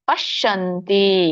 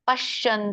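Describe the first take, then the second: First: The word ends with a full final vowel. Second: The final vowel of the word is dropped. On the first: The speaker calls it right. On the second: The speaker calls it wrong.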